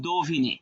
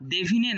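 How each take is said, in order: First: "দোভিনে" with an o sound in the first syllable; correct o-vowel. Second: "দেভিনে" with an e sound in the first syllable; wrong e-vowel. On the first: Teacher offers students the right option, "দোভিনে" with do. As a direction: say "দোভিনে" opening on do, not de. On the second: Teacher offers students the wrong option, "দেভিনে" with de. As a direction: say "দেভিনে" opening on de, not do. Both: Shown as a demonstration. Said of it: "তাহলে সেখানে ওকার হবে".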